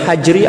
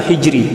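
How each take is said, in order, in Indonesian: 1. Vokal pertama adalah bunyi 'a' yang terbuka. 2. Vokal pertama adalah bunyi 'i' yang tertutup. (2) "bikasril ha"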